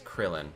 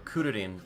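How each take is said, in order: First: The name is said the English way. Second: The name is said the Japanese way.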